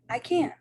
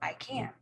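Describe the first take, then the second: First: It is said with strong exclamatory emphasis. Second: It is said as a plain, level statement. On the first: The speaker exclaims about an ability. "and an exclamation" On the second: The speaker states an ability. "in a statement"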